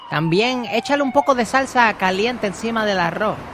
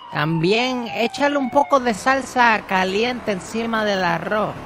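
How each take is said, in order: First: It is said at normal speed. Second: It is said slowly.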